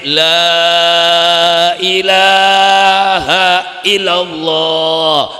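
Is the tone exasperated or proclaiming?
proclaiming. It is said in a loud, proclaiming tone. Someone is preaching to an audience. "ning dhuwur panggung ngucape"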